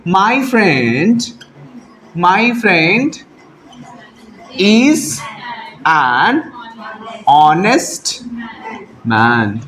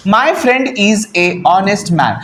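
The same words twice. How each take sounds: First: Slow dictation, pausing after every word. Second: Slow, word-by-word reading of the wrong sentence. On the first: Teacher dictates the corrected answer to students, word by word. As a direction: dictate each word so the class can write it. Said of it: "answer लिखेंगे". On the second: Teacher reads the wrong sentence aloud to students, slowly. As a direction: read the faulty sentence out slowly for the class. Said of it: "यहाँ पे honest ह नहीं sound कर रहा". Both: Shown as a demonstration.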